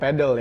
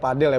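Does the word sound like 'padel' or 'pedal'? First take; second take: pedal; padel. First: The word is said as 'pedal', like the English word. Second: The word is said as 'padel', with open a. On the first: The speaker calls it wrong. "bukan pedal ya" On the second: The speaker calls it right. "sebenarnya padel ya"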